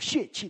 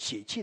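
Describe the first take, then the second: First: It is read with the mainland pronunciation. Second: It is read with the Taiwan pronunciation. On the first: "我知道在国内是读血气的" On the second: "我们台湾来的人习惯读血气的"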